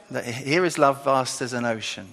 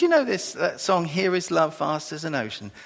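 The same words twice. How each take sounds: First: Said in the usual way. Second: A light imitated Chinese accent. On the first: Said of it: "No, Here Is Love Beyond". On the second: Preacher quoting Chinese student asking about the hymn, light Chinese accent. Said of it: "she was saying it in a Chinese accent".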